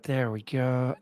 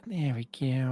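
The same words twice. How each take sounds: First: Said in the usual way. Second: Lightly voiced cartoon-kid impression, kept soft; a quick, quiet stab at a cartoon character; Eric Cartman. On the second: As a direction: toss off a soft mock cartoon voice. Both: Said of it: "that's my best Eric Cartman impression".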